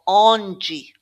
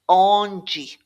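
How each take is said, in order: The two takes are said the same way.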